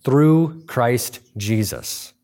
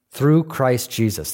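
First: "Through" slow and weighty, stress falling on it. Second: "Through" stressed, slightly quicker repeat. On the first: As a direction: lean hard on "Through", very slow. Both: Shown as a demonstration.

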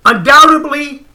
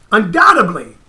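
First: "undoubtedly" drawn out slowly and pressed higher; emphatic. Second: Said in the usual way. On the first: Shown as a demonstration. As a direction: lean hard on "undoubtedly", stretching it.

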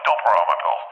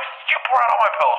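First: Said in the usual way. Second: Very high-pitched acted yell; high, frantic retold outburst; outward outburst. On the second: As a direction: shriek the order in mock fury. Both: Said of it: "But in my head, I'm like".

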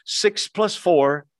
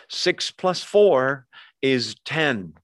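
First: "six plus four" drawn out slowly with weight on "plus"; slow stress on plus. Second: "Six plus four is ten" said slowly, weight on "four"; slow stress on four. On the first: Preacher repeating the sum to the congregation, slow and deliberate. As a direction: stretch "plus" slowly to make the point. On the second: Preacher teaching the congregation simple math, slow and firm. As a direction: lean into "four" and land on "ten". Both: Shown as a demonstration.

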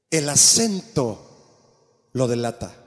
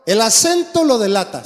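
First: "El acento lo delata" slowed right down, each word weighted; preacher hammering the point home slowly; slow emphatic repeat. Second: Said in the usual way. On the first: Shown as a demonstration.

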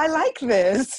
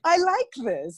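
First: Slow, high, laughing delight; mock-delighted younger self. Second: Much higher, laughing, gleeful repeat; playful gleeful echo of younger self; delighted. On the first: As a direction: savour it like a new passion. Voicing her younger delighted self. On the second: Retold or imitated. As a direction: relish the discovery, giggling.

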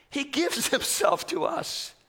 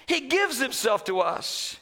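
First: Laughing. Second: Said in the usual way. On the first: Real, not acted.

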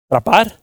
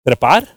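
First: "Trapar" with an a in place of e, asked with a rise; mispronounced trapar. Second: Said in the usual way. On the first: Shown as a demonstration. Preacher fumbling the Spanish word for climb, "Trapar" with an a. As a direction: say "Trapar" as a questioning slip for trepar. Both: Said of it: "Se oyó como trapar".

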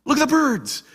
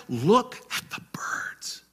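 First: Higher, insistent repeat; emphatic call. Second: Breathy whisper, slow; whispered quote. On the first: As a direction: call their eyes to the birds. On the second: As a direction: hush it like a secret. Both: Acted. Quoting Jesus, repeated line.

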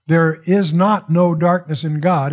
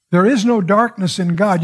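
First: Slow, leaning on "not" in "There is not no darkness"; stress on not. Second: Said in the usual way. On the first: Shown as a demonstration. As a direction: press "not" to make the double negative emphatic. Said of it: "a double negative is a way of emphasis". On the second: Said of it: "is what the Greek says".

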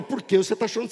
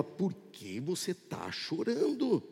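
First: Said in the usual way. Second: Very soft, slow angel's question; tender near-murmur, drawn out; gentle question. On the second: Retold or imitated. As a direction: ask it in a hushed voice, lingering on chorando. Angel gently questions crying believer.

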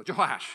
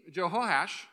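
First: Jehoash said boldly, choh-HASH, loud and falling; confident Jehoash. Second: Jehoash read out carefully, choo-HO-ash, trailing off; unsure first try at Jehoash. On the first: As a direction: state Jehoash like nobody can question it. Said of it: "say it really confidently and nobody will, uh, question you". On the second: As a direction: test out Jehoash as if unsure of the name. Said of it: "I hope I pronounced that correctly". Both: Shown as a demonstration.

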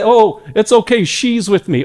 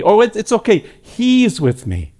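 First: High, gentle reassurance; Jesus vouching for a sinner, higher and gentle; reassuring Jesus voice. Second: High then slowing into tender reassurance; Jesus vouching for a sinner, tender and slowing; reassuring Jesus voice. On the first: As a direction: reassure the Father, tenderly. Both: Acted. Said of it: "he'll say".

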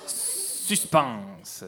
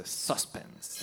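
First: Said in the usual way. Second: Suspense whispered, no voice. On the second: Shown as a demonstration. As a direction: breathe suspense out as a secret.

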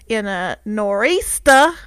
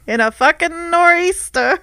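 First: Said in the usual way. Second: "fucking nor'easter" punched higher with a laugh; emphatic repeat. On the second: Real, not acted. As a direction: hit "fucking nor'easter" hard, half laughing.

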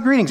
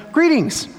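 First: Said in the usual way. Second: "Greetings." lifted much higher in a grand tone; Jesus greeting. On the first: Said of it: "He says". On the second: Retold or imitated. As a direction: say "Greetings." high and stately. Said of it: "and he says".

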